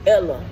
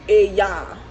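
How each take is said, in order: First: The word is read with an English pronunciation. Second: The word is read with a Spanish pronunciation. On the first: The speaker calls it wrong. "if you read it with the English mindset, it says Ella" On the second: The speaker calls it right. "It's Ella because it's Spanish"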